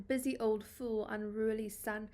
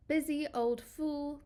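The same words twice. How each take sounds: First: Said in the usual way. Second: Slower and higher, scornfully stressing busy; assertive, scornful recitation of busy old fool; confrontational. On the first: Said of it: "starts off very boldly". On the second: Shown as a demonstration. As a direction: scold the sun like a meddling fool. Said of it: "very assertive, confrontational tone".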